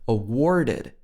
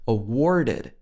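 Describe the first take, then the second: First: The vowel is R-colored with an audible r. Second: The vowel is R-colored with an audible r.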